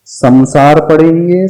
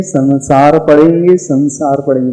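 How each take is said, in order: First: "संसार" said with an m sound, sam-saar; slow "संसार" with m before s; wrong samsar. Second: "संसार" with a clear n before s, san-saar; anusvara as n. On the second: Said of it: "उसमें न है". ("संसार" में अनुस्वार को न बोलें) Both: Shown as a demonstration.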